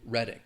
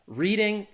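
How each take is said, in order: First: It is pronounced as the English town name. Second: It is pronounced as the verb form of read. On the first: It names a town in the UK. "the name of a, a town in the U K" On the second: It is the act of reading. "a verb to read in the continuous tense"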